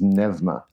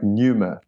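First: A 'v' sound follows the 'e'. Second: The vowel after the 'e' sounds like 'oo'. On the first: The speaker calls it right. "to make the upsilon of a V sound is great" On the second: The speaker calls it wrong. "pneuma sounded like such an awkward thing to say"

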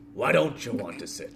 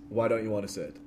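First: It is said in a put-on character voice. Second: It is said in the speaker's normal voice.

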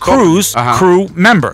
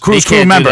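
First: The phrase is said at a normal pace. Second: The phrase is said quickly.

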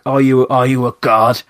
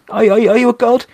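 First: It is asked in a spiteful, mocking way. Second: It is asked as an innocent, genuine question.

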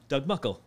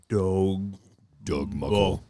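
First: The name is said in a normal voice. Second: The name is said in a slowed, deepened voice. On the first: "We used to go" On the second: "play back and be like"

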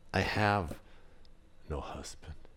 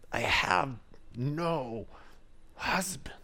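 First: The voice sounds quiet and ashamed. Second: The voice sounds sharp and irritated. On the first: She is embarrassed about her life. "Was it shame? Did she hang her head?" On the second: She is annoyed at being asked. "Or did she say it in frustration?"

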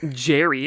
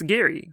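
First: The name starts with a 'j' sound. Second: The name starts with a hard 'g' sound. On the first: The speaker calls it wrong. "you don't pronounce it Jerry" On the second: The speaker calls it right. "it's Gary"

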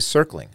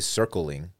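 First: The word is said with two syllables. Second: The word is said with three syllables. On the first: The speaker calls it right. "I say circling. I think most people do" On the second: The speaker calls it wrong. "You don't say circling"

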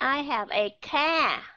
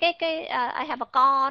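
First: The vowel in car is a front a. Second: The vowel in car is a rounded o. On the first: "vẫn đọc là we are, I have a car" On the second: "cái co đó thì nó lại là sai"

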